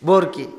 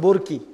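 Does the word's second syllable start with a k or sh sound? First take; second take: k; k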